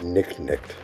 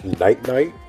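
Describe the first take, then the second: First: The name is said with a short 'i', like 'nick'. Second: The name is said with a long 'i', like 'night'. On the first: This is how it would be said in Greek or Latin. The speaker calls it wrong. "or is it Nick Nick?" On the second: This is the American English way of saying it. The speaker calls it right. "is your name pronounced Night Night"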